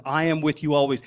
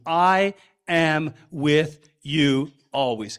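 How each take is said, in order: First: Said in the usual way. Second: Slow, each word of "I am with you always" pressed apart and weighted; every word emphatic. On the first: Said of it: "Every word is emphatic". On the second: Shown as a demonstration. Pastor shows the congregation the emphatic original, slow and weighty. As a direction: lean hard on every single word of "I am with you always", slowly. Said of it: "Every word is emphatic in the original language".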